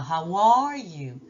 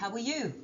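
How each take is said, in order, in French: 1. Le mot 'are' a une voyelle longue pleine. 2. Le mot 'are' a une voyelle courte de type schwa. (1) "on ne dit pas" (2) "On dit … le « A » est devenu « E »"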